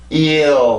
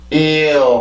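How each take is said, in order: First: The vowel glides gradually up into the L. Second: The vowel glides gradually up into the L.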